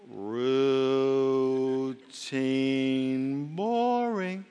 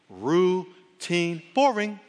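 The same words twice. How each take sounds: First: It is said slowly. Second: It is said at normal speed.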